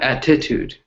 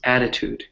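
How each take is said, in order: First: The stress is on a later syllable. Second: The stress is on the first syllable. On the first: The speaker calls it wrong. "It's not" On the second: The speaker calls it right. "the stress is on that first syllable"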